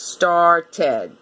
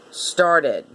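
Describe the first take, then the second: First: STARTED in two full beats, STAR-TED; by syllables. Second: Said in the usual way. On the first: Shown as a demonstration. Teacher doing it by syllables, STARTED as STAR-TED. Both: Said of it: "when you do it by syllables".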